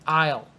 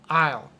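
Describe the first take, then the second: The two takes are said the same way.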